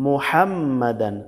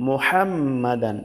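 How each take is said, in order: Both takes have the same delivery.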